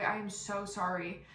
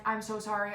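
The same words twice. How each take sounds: First: Slow "I am so sorry", each word separate; emphatic apology. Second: Said in the usual way. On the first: Retold or imitated. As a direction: spell out "I am" uncontracted, stretching the apology. Repeats apology with more emphasis.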